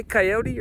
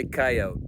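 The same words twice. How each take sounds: First: "coyote" with a final ee sound; three syllables in "coyote", ending in -tee. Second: "coyote" with no final ee, ending on the t; two syllables in "coyote", rhyming its end with oat. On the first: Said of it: "do you say coyote or". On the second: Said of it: "or do you say coyote". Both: Shown as a demonstration.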